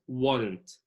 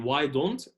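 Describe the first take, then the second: First: American why don't squeezed into warrant; American reduced form. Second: Why don't with a clear D; full form. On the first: Teacher drilling American linking, why don't said like warrant. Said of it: "باللهجة الأمريكية الخالصة". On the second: Teacher explaining the reduced form, why don't fully pronounced. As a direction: say why don't as two distinct words. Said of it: "يعني why don't". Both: Shown as a demonstration.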